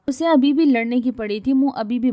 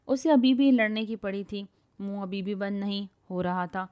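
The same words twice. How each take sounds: First: Louder, higher retake of the line; louder reread. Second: Said in the usual way. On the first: Shown as a demonstration. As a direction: read it again with more push on بھی. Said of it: "same lines reread louder". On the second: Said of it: "narration read twice".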